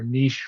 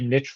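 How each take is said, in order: First: The word is said the French way. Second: The word is said the English way. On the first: The speaker calls it right. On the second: The speaker calls it wrong.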